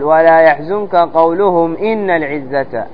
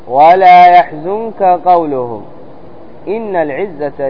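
First: There is no pause after قولهم. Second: There is a pause after قولهم. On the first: The words after become what they said. The speaker calls it wrong. "ما أمشي ما أقول ولا يحزنك قولهم إن العزة، هذا خطأ" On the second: The words after are not what they said. The speaker calls it right. "فيجب الوقف على كلمة قولهم ثم الابتداء ب إن العزة لله جميعا"

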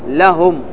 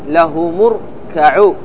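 First: The final m ends with no vowel. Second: The m carries a u vowel into the next word. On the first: The reader stops on the word. "فتقول عند الوقف لهم" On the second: The reader joins it to the next word. "وعند الوصل له مركعوا"

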